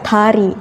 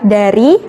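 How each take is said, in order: First: The word begins with a t-like sound. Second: The word begins with a voiced d sound. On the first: It is read as a Korean word. "bahasa Korea tari" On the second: It is read as an Indonesian word. "kalau bahasa Indonesia dari"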